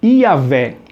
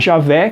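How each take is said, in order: First: The name begins with a Y sound. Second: The name begins with a J sound. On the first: "o J, ele tem som de I" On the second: "que seria no caso como a gente falaria"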